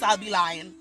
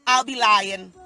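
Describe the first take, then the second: First: Said in the usual way. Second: "I'll be lying" repeated much louder; emphatic repeat. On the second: Shown as a demonstration. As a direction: hammer home "I'll be lying" the second time.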